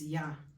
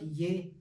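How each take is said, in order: First: The syllable has an 'ah' vowel. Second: The syllable has an 'eh' vowel. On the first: The speaker calls it right. "it's Yah" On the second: The speaker calls it wrong. "it's not Ye"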